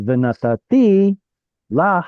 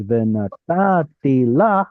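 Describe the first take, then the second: First: Venatati la with TI punched higher, a break, then stressed LA; adjacent final stress. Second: Venatati la with long stressed TA before ti, then LA; stress moved back. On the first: Teacher showing the avoided form, venatati la stressed on TI and LA. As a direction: hit the last syllable, venataTI, then LA right after. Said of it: "instead of". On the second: Teacher showing what it becomes, venatati la stressed on TA and LA. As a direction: stress venaTAti LA, keeping ti unstressed between the beats. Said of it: "can't have two adjacent stressed syllables".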